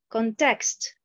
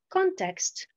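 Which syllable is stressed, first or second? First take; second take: second; first. First: The stress is on the second syllable. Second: The stress is on the first syllable. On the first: The speaker calls it wrong. "la mauvaise prononciation" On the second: The speaker calls it right. "la bonne prononciation"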